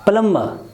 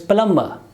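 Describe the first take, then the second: The two takes are said the same way.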